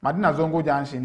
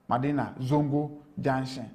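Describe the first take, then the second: First: Said in the usual way. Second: Slow "Madina. Zongo. Junction." with gaps; word by word. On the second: Real, not acted. Reporter names Madina Zongo Junction for the host, slowly, word by word. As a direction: set each word of "Madina Zongo Junction" apart, softer. Repeats place name word by word.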